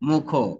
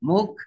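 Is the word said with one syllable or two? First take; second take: two; one. First: The word is said as two syllables. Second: The word is said as one syllable. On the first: "দেখো এবার মুখো হচ্ছে" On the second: "মনোসিলেবাল"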